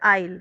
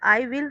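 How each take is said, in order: First: The words are run together as one syllable. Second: Both words are said in full.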